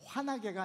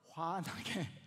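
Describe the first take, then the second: First: The middle h sound is weakened or dropped. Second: The middle h sound is clearly pronounced. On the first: The speaker calls it wrong. "환하게가 아니라" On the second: The speaker calls it right. "발음 잘 하셔야 돼요"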